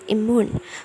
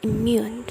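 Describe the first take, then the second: First: There is no Y sound after the M. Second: A Y sound is inserted after the M. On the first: The speaker calls it wrong. "it's not pronounced immune" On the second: The speaker calls it right. "there is insertion the Y sound after the M sound"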